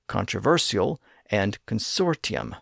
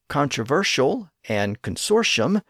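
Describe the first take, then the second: First: The consonants before the endings are not sh. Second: The consonants before the endings sound like sh. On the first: This is the reverted original pronunciation. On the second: This is the shifted pronunciation.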